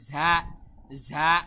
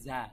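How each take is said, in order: First: The consonant is pushed with pressure from the throat. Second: The consonant is said plainly, without pressure. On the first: The speaker calls it right. "একটু চাপ দিয়ে" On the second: The speaker calls it wrong. "মানুষ বলে থাকে ঝা"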